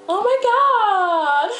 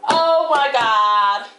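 First: High, drawn-out Beverly Hills whine; Beverly Hills American. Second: Put-on sassy, indignant girl. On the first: Acted. Girl discovers her broken nail, appalled Beverly Hills American. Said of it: "Beverly Hills American". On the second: Reacting to being dissed by the chicken thief, sassy disbelief. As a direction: drag it out in sassy outrage.

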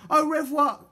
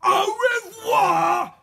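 First: Put-on high, bright-pitched girl's courteous reply; polite. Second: Very high, loud, drawn-out gloating farewell; shout. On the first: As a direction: answer the farewell politely. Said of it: "replied Polly politely". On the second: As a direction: bellow a long triumphant goodbye. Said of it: "shouted Mister Gum". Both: A narrator's reading.

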